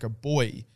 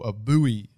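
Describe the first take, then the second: First: It is said in a British way. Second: It is said in an American way.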